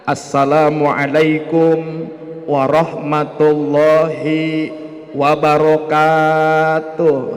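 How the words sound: It imitates an ustadz's greeting.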